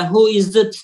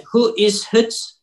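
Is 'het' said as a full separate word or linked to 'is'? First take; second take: linked; full. First: The word het is reduced and linked to is. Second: The word het is said fully and separately. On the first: The speaker calls it right. "Aslında orada direkt birleştiriyoruz yani" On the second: The speaker calls it wrong. "Orada bir het kelimesini het olarak demiyoruz orada"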